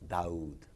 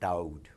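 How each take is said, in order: First: The D is soft, less sharp. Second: The D is sharp and hard. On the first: The speaker calls it right. "it's Daoud" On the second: The speaker calls it wrong. "It's not Daoud"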